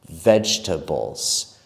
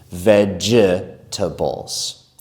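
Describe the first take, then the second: First: The word is said with three syllables. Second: The word is said with four syllables. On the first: The speaker calls it right. "three parts, three syllables" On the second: The speaker calls it wrong. "We do not say the second E in that word. We do not say vegetables"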